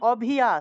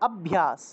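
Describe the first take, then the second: First: The middle sounds are split into separate syllables. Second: The middle sounds are joined into one cluster. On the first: The speaker calls it wrong. "অভিয়াস এরকম এরকম উচ্চারণ করলে হবে না" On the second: The speaker calls it right. "একসাথে অভ্যাস"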